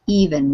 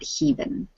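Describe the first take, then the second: First: The word starts directly with a vowel sound. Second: The word starts with an added h sound. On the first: The speaker calls it right. "It's just even" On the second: The speaker calls it wrong. "don't put an H on it"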